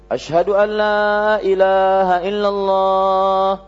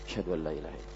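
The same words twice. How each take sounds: First: The phrase is said in a high, loud voice. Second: The phrase is said in a low, quiet voice.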